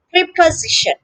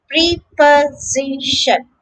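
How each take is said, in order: First: Prep-uh-ZI-shun; "preposition" as prep-uh-ZI-shun; third-syllable stress. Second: Slow "preposition", pre-po-zi-shun; drawn-out, separated "preposition"; syllable by syllable. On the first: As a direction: lean on ZI in "preposition", s said as z. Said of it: "the stress is on the third syllable". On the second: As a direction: sound out each syllable of "preposition", s as z. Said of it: "notice that the S is pronounced". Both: Shown as a demonstration.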